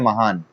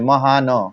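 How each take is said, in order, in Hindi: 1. शब्द एक साधारण n ध्वनि पर खत्म होता है। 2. अंतिम n के बाद एक स्वर आता है। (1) "आप इसको पढ़ते हैं महान" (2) "आप इसको ये नहीं पढ़ते महान, ये न है ना"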